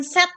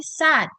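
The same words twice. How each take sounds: First: SAD said the mistaken way; the incorrect "sad", as a counterexample; wrong pronunciation. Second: "sad" modelled the English way; careful teacher's model of "sad"; correct pronunciation. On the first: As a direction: show how not to say "sad". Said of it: "Di sini bukan sad, ya, tapi, tapi sad". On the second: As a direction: show the proper vowel in "sad". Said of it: "bukan sad, ya, tapi, tapi sad". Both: Shown as a demonstration.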